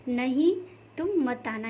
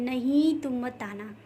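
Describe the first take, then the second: First: "नहीं" hit hard and loud, then the rest; stress on नहीं. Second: "नहीं" pressed with extra force, slow; slow demo, weight on "नहीं"; stress on नहीं. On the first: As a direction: punch the word "नहीं" with force. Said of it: "यहाँ पे नहीं पे ज़्यादा फोर्स दिया गया है". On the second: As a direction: lean hard on "नहीं", slowly. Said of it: "ज़्यादा बल दिया गया है". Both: Shown as a demonstration.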